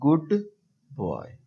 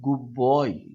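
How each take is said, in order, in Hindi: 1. दोनों शब्दों के बीच गैप है। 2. दोनों शब्द बिना गैप के जुड़े हुए हैं। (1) "यहाँ पे एक गैप आ जाएगा" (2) "इसमें गैप खत्म हो जाता है"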